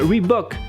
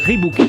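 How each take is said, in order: First: The last syllable has a short 'o' vowel. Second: The last syllable has a long 'oo' vowel. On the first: The speaker calls it right. "il faut dire Reebok, ce qui est normal puisqu'il y a qu'un O" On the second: The speaker calls it wrong. "que la plupart des gens disent Reebok"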